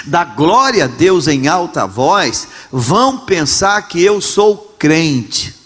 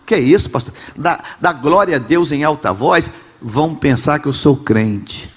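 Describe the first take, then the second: First: Slow, dragging mock of a shy churchgoer; embarrassed believer, drawn out. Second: A hint of a timid churchgoer, a bit hushed; mock the shy member afraid to praise; embarrassed believer. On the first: Pastor mocking ashamed believers, slow and drawn out. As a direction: stretch every word like a reluctant member. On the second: Pastor mocking ashamed believers, lightly hushed. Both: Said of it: "Ah, nós temos vergonha".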